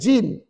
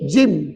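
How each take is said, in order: First: The word ends with open lips, an n sound. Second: The word ends with closed lips, an m sound. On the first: The speaker calls it wrong. "bukannya jin" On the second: The speaker calls it right. "Jim, tutup bibir"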